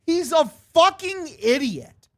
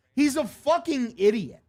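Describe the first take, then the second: First: Much higher, strained exasperated outburst. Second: Irritated insult, lightly raised; annoyed. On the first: Gamer blowing up at Wilson, exasperated outburst. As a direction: let it burst out in disbelief. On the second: Gamer fuming at Wilson, irritated. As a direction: say it fed up, not yet shouting. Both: Real, not acted. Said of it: "repeats insult louder".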